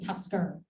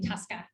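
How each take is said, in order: First: The word ends with an r sound. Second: The word ends without an r sound. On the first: This is the name as it is actually spelled. "it's the Tusker, E R" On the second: This is how local fishermen said the name. "because of the Maine accent that they don't pronounce the E R"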